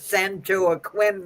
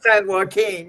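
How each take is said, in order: First: The name is given a clumsy anglicized pronunciation. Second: The name is given a Spanish-style pronunciation. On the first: The speaker is not familiar with Spanish or the place. The speaker calls it wrong. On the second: The speaker knows the place. The speaker calls it right.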